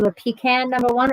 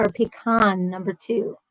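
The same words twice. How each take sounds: First: "pecan" said PEE-can, ending like "can". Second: "pecan" said puh-KAHN, ending like "con". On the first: Host polling Ed on ice cream, "pecan" said PEE-can. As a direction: say "pecan" with the short a of "cat". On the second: Host polling Ed on ice cream, "pecan" said puh-KAHN. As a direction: say "pecan" with an open ah, stressed last. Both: Shown as a demonstration. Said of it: "do you say pecan or pecan".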